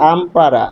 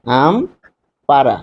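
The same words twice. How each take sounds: First: Said in the usual way. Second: Ampara very slowly, a long pause between আম and পাড়া; split into syllables. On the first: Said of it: "আমরা যদি এখানে খেয়াল করি". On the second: Shown as a demonstration. Teacher showing the two syllables in one word, Ampara said slowly in two separate parts. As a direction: break Ampara in two: আম, then পাড়া, drawn out. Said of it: "এই একটি শব্দের মধ্যে দুইটি অক্ষর রয়েছে".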